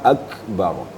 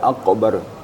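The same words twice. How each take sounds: First: The k is released with a soft breath. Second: The k is released with an echoing bounce. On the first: The speaker calls it right. "harus ada hembusan ak" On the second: The speaker calls it wrong. "Jangan dibaca akbar, jadi qalqalah"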